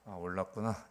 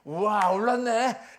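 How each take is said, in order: First: It is said flatly, without surprise. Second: It is said with excited surprise.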